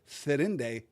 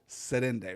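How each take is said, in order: First: The name begins with a th sound. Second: The name begins with an s sound. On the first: This is the older Noldorin form the character insists on. "which he pronounces Therinde" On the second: This is the later Sindarin form with s. "not Serinde"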